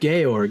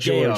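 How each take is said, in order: First: The name is said as Georg. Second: The name is said like English George. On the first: The speaker calls it right. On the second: The speaker calls it wrong. "It's not George"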